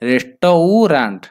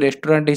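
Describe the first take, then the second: First: The middle part is said fully as 'tau'. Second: The middle part is reduced to a short vowel. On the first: This helps the listener remember the spelling. "ରେଷ୍ଟୌରାଣ୍ଟ ଏମିତି ଯଦି ଜାଣିବେ ତାହେଲେ ସେଇଟା ଠିକ୍ ଆସିବ ବନାନ" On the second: This is the everyday way the word is said. "ଆମେ ଯେଉଁ ଯେହେତୁ ସେଇଟାକୁ ଉଚ୍ଚାରଣ କରୁଛନ୍ତି ରେଷ୍ଟୁରାଣ୍ଟ ହିସାବରେ"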